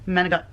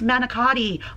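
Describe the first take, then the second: First: The word is said the Italian-American way. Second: The word is said the standard American way.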